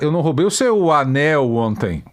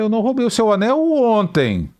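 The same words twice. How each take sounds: First: The stress falls on the word anel. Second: The stress falls on the word ontem. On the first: Something else was stolen. "Eu roubei a bota" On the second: It was stolen on another day. "Anteontem eu roubei"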